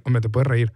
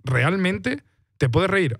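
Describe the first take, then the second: First: Said in the usual way. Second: Slow, drawn-out question pitched higher, doubting "reír"; incredulous question. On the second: Retold or imitated. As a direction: stretch it out in disbelief, as if "reír" is unthinkable. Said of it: "la lectura que puedes hacer es".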